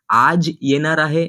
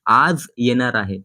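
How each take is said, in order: First: आज said with a hard j sound, aaj; the wrong take: आज with Hindi j as in jam; wrong Hindi-style aaj. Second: The right take: आज ending in z as in zoo; correct Marathi aaz. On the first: Teacher showing the wrong way, आज as Hindi aaj. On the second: Teacher showing the Marathi way, आज as aaz. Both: Shown as a demonstration. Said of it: "ऐसे नहीं कहना है".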